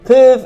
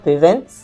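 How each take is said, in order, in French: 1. La terminaison finale -ent est muette. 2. La terminaison finale -ent est prononcée. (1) "the ent at the end is not sounded" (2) "is not"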